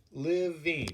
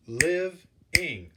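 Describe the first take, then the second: First: Said in the usual way. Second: "living" broken into two beats, liv, ing, loudly; split into syllables. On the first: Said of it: "diagrammed each word with the amount of syllables". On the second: Shown as a demonstration. Teacher counting syllables for class, "living" split firmly as liv-ing. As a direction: sound out "living" one syllable at a time. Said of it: "That's two syllables".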